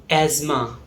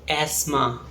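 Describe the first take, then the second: Both takes have the same delivery.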